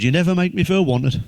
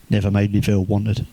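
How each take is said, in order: First: Higher-pitched mock complaint; lifted, lightly acted reproach; quoted complaint. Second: Low, muted echo of a complaint; dropped-pitch mock disbelief; deadpan echo. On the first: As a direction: imitate a partner's grievance. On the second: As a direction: repeat the grievance back in a lower pitch. Teller echoes the complaint back.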